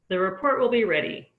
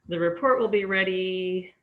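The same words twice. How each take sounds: First: The pitch falls at the end. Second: The pitch stays level at the end. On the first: The speaker has finished the sentence. "I use falling intonation" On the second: More information is coming. "I use more level intonation"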